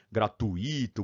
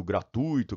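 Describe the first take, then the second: First: "gratuito" broken as gra-tu-Í-to; silabada on gratuito. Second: "gratuito" as gra-TÚI-to; gratuito as diphthong. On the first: Teacher recalls what people get wrong, "gratuito" as gratuÍto. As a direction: stress the i of "gratuito" as its own syllable. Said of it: "as pessoas comiam bola". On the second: Teacher gives the correct form, "gratuito" as graTÚIto. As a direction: stress the u of "gratuito", gliding into the i. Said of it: "gratuito é um ditongo". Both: Shown as a demonstration.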